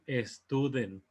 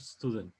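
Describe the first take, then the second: First: A vowel sound comes before the S. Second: The word starts directly with the S. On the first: The speaker calls it wrong. "No vamos a decir student" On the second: The speaker calls it right. "Solamente empezar a hacer el sonido de la S y después lo que sigue"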